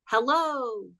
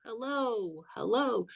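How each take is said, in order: First: First "Hello" said clear and a little higher; reverb echo demo. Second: "hello, hello." repeated much softer, dying away like reverb; fading reverb echo. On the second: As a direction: let each "hello" fade out like an echo. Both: Shown as a demonstration. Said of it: "it would go like this".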